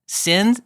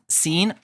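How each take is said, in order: First: The vowel is short, as in bin. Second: The vowel is long, as in mean. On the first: "would you say sin"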